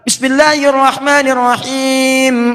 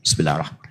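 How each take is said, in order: First: It is said loudly and clearly aloud. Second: It is said quietly, under the breath.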